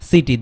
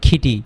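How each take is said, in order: First: The word begins with a soft s sound. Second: The word begins with an aspirated k sound. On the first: The speaker calls it right. "দন্ত স এর মতো হবে, soft সি" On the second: The speaker calls it wrong. "খিটি বললে হবে না"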